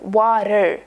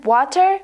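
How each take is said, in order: First: "water" with the T softened into a quick tap; American water. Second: "water" with a crisp, clearly released T; hard-T water. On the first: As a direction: say "water" like "wah-der", voice falling. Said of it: "she said it like". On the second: Learner recalling the old way of saying it, "water" with hard T. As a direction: say "water" with a full T, voice rising. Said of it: "like I did". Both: Retold or imitated.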